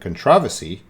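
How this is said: It is said with a British pronunciation.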